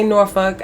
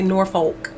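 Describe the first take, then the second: First: Norfolk is said with the local pronunciation. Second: Norfolk is said with an outsider's pronunciation. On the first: The speaker is from the area. The speaker calls it right. "you know I'm from there because I say Norfolk" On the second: The speaker is not from the area. The speaker calls it wrong. "I don't say Norfolk"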